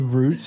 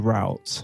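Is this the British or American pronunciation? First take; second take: British; American. First: It is said the British way. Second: It is said the American way.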